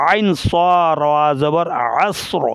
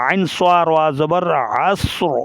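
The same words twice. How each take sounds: Both takes have the same delivery.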